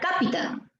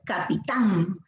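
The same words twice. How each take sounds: First: The stress is on the first syllable. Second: The stress is on the last syllable. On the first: The speaker calls it wrong. "Si fuera K, diría capitán" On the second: The speaker calls it right. "Lo correcto es capitán"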